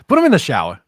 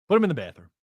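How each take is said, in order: First: \"Put him in the shower\" shouted louder, with a punch on \"him\"; loud joking call. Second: \"Put him in the bathroom\" called out high and gleeful; joking call. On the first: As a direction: belt out \"Put him in the shower\" as the better joke. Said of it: "can we say shower". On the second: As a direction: throw out \"Put him in the bathroom\" as a cheeky joke. Joking call about the trade. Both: Real, not acted.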